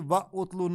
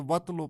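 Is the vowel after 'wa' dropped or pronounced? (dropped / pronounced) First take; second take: pronounced; dropped. First: The initial u of utlu is pronounced separately. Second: The initial u is dropped, linking wa to tlu. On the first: The speaker calls it wrong. "व उतलो नहीं पढ़ा जाएगा" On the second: The speaker calls it right. "बल्कि वतलो पढ़ा जाएगा"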